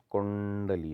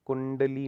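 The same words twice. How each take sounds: First: कुंडली with a held curled-tongue ṇ; retroflex ण. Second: कुंडली with a short plain n, high; wrong n sound. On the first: Teacher correcting it, कुंडली with full retroflex nasal. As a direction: linger on the ण in कुंडली. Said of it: "ण वाली feeling आनी चाहिए". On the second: Teacher showing the error, कुंडली with short plain n. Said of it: "नहीं होता". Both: Shown as a demonstration.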